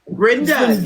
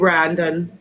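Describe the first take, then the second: First: The first vowel sounds like 'e' in 'bren'. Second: The first vowel sounds like 'a' in 'bran'. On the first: The speaker calls it right. "there's no A's in it" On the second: The speaker calls it wrong. "I think you pronounced it a little wrong"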